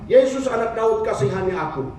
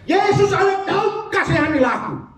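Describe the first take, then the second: First: It is said quietly and softly. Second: It is said loudly and forcefully.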